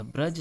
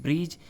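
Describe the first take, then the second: First: ब्रज with a short A; correct pronunciation. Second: ब्रिज with an I vowel; incorrect pronunciation. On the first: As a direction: say ब्रज as "braj". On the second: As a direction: say ब्रिज as "brij". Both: Shown as a demonstration. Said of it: "यह ब्रज सही होता है".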